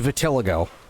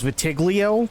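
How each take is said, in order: First: The word ends with a 'ligo' sound. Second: The word ends with a 'glio' sound. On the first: The speaker calls it right. "but it's vitiligo, I think" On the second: The speaker calls it wrong. "I always mispronounced it as vitiglio"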